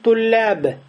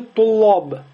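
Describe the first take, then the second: First: The L is light with a thin, front vowel. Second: The L is heavy with a deep, rounded vowel. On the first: The speaker calls it right. "Говорим туляб" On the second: The speaker calls it wrong. "не говорим же тулоб"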